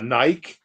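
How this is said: It is said with a British pronunciation.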